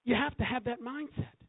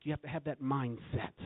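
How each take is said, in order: First: Much higher, rising on you; raised emphatic repeat. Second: Said in the usual way. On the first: Shown as a demonstration. Preacher repeating the point to congregation, raised. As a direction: lift it to drive the point home.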